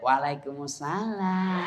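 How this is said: It is said in a soft, sultry voice.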